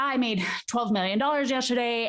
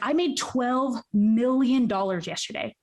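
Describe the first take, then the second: First: It is said quickly and flatly, without weight. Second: It is said slowly with heavy weight on words. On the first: The amount seems ordinary. "because you said it that way" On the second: The amount is significant. "just the way that you said it"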